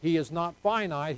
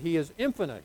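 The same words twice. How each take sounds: First: Finite given weight and falling; stress on finite. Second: Infinite given weight and falling; stress on infinite. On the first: Pastor sets finite against infinite, stressing finite. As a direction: lean on "finite" after "not", falling at the end. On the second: Pastor corrects finite to infinite, stressing infinite. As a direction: lean on "infinite", the in- clearly sounded. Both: Shown as a demonstration.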